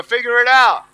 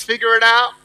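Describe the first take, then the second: First: Loud, emphatic rallying call; stronger. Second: Said in the usual way. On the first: Shown as a demonstration. Speaker leads audience repeating the words, stronger. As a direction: push the phrase out with more force. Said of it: "say it stronger". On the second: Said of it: "Come on, say it stronger".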